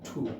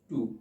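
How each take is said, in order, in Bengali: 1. t টি জোরালো মহাপ্রাণ। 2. t টি সাধারণ, অল্পপ্রাণ। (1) "টের উচ্চারণটা হবে হচ্ছে থয়ের উচ্চারণ" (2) "আগে আমরা বলতাম হচ্ছে কি টু"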